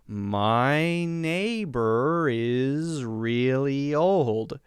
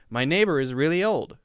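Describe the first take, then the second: First: The sentence is spoken very slowly but still smoothly. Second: The sentence is spoken at a normal, smooth pace.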